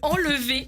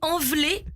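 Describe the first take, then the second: First: The l sound comes before the v sound. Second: The v sound comes before the l sound. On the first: This is the usual form of the word. The speaker calls it right. "au lieu de enlever" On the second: This is how the little girl says the word. The speaker calls it wrong. "Elle dit enveler"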